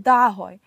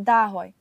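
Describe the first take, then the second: Both takes have the same delivery.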